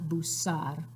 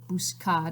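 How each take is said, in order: First: The C is said with an S sound. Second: The C is said with a K sound. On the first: The speaker calls it wrong. "it's not busar" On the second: The speaker calls it right. "remember that's pronounced like a K"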